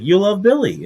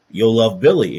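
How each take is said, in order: First: Excited pitch. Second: Said in the usual way. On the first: Retold or imitated. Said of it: "He's like". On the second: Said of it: "But the person's like".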